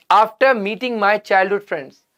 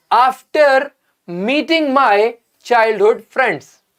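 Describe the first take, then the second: First: Said in the usual way. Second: Very slow, each word laid out for the class; slow careful reading. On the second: Shown as a demonstration. Teacher reading a sentence to students, very slow and deliberate. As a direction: read it out slowly so students catch every word. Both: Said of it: "read the second part of the sentence carefully".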